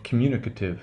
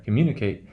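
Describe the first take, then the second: First: Communicative with "ate" reduced to "uh"; schwa in communicative. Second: Communicate ending in a clear "kate"; long "eight" in communicate. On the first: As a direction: say communicative with a weak "kuh-tiv" ending. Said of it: "that eight becomes, uh". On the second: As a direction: let the "eight" in communicate be heard. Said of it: "you can hear the eight there". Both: Shown as a demonstration.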